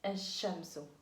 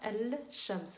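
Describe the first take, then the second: First: The L is silent and the sh is doubled. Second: The L is pronounced before the sh sound. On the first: The speaker calls it right. "on dit الشمس" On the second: The speaker calls it wrong. "On ne dit pas الشمس"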